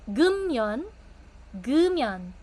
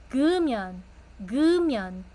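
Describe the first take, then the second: The two takes are said the same way.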